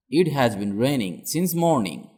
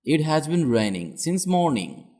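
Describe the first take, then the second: No difference in how they are said.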